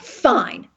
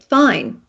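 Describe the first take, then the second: First: It is said in a nasty, angry tone. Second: It is said in a plain, neutral tone.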